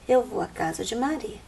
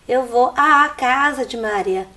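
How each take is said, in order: First: The vowel before casa is single. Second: The vowel before casa is doubled. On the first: The speaker calls it right. "desaparece um fonema, só fica um" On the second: The speaker calls it wrong. "uma vez eu ouvi alguém dizer"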